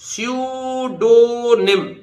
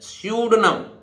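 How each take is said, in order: First: The middle 'o' vowel is clearly pronounced. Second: The middle 'o' vowel is dropped. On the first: The speaker calls it wrong. "नहीं sir" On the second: The speaker calls it right. "ये ओ भी silent हो जाएगा यहां"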